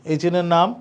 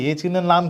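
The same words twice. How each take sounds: The two takes are said the same way.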